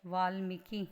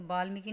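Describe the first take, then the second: First: वाल्मीकि started on v, as vaal-miki; correct form with v. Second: वाल्मीकि started on a b, as baal-miki; wrong form with b. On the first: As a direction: say वाल्मीकि with a clear initial v. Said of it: "क्या होता है". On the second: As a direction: swap the v of वाल्मीकि for b. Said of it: "वाल्मीकि नहीं होता". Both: Shown as a demonstration.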